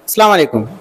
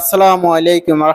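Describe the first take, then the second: First: The greeting is pronounced in a distorted, altered way. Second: The greeting is pronounced carefully with every sound intact. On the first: The speaker calls it wrong. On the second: The speaker calls it right.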